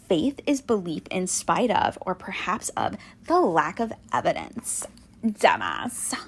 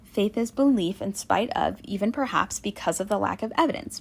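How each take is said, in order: First: It is said in a haughty, contemptuous tone. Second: It is said in a neutral, plain tone.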